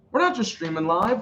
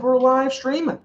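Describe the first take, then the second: First: "not" hit hard in "We're not just streaming live"; stress on not. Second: "live" punched higher and louder in "We're live streaming"; stress on live. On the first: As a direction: lean on "not", then let "streaming live" ride. Joking about streaming live. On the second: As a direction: pop the word "live" like a punchline. Joking about live streaming. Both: Shown as a demonstration.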